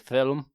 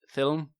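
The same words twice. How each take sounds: First: An extra vowel splits it into two syllables. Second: It is said as one syllable, no extra vowel. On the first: The speaker calls it wrong. "like as if there's a U in it" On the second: The speaker calls it right. "instead of film"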